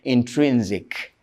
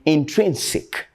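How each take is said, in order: First: The last syllable starts with a z sound. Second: The last syllable starts with an s sound. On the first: The speaker calls it wrong. "some people say" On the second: The speaker calls it right. "that sick, not zick"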